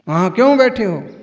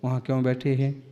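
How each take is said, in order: First: It is said in a bossy, authoritative tone. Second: It is said in a gentle, polite tone.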